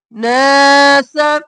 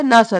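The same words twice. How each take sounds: First: नासा with the ना drawn out, slow; correct madd. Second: नासा with a short a on ना; wrong pronunciation. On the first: Teacher models the right नासा for students. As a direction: stretch the a in नासा by one alif. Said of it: "अलिफ के बराबर खींचेंगे". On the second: Teacher shows students the wrong नासा. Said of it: "नासा नहीं करना". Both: Shown as a demonstration.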